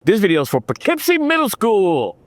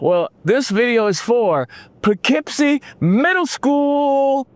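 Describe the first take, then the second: First: High, big hype announcement; hyped announcer. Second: Drawn-out announcement. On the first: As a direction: announce it like the crowd is roaring. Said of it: "Let's try it again". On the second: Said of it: "The crowd should be going wild right now". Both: Shown as a demonstration.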